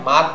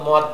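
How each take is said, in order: First: The vowel is an open 'a' sound. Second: The vowel is a short rounded 'o' sound. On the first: The speaker calls it right. "সবসময় এটা মাদ বলবো" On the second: The speaker calls it wrong. "মনের অজান্তেই ভুলটা হয়, সেটা হলো মদ বলে"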